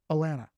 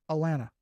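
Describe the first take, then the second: First: It is said the way locals pronounce it. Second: It is said the way locals pronounce it.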